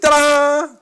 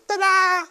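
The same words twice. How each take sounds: First: It is said in the speaker's normal voice. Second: It is said in a five-year-old child's voice.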